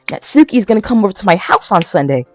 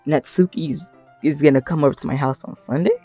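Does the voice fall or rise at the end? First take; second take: fall; rise. First: It ends falling, like a statement. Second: It ends rising, like a question.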